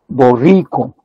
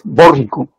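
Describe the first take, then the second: First: The stress is on the second syllable. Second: The stress is on the first syllable. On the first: This is the standard Spanish pronunciation. "Nadie dice borrico" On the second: This is how Quechua speakers say it. "con acento en la primera sílaba"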